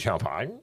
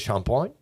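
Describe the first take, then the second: First: The word is said with an English pronunciation. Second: The word is said with a French pronunciation. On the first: "Os ingleses dizem champagne" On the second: "Em francês é champagne"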